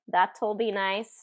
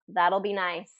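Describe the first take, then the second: First: The T is said as a clear T. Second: The T is flapped like a quick D. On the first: The speaker calls it wrong. "No, we don't, we don't use that as a contraction" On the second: The speaker calls it right. "So that T becomes a D"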